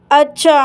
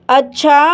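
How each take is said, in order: Both takes have the same delivery.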